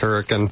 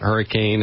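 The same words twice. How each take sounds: First: It is said the local way. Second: It is said the ordinary, non-local way. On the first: The speaker calls it right. "it's Hurricane. That's how we pronounce it down there" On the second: The speaker calls it wrong. "It's not Hurricane"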